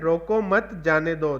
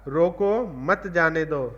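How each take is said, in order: First: There is a pause after 'mat'. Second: There is a pause after 'roko'.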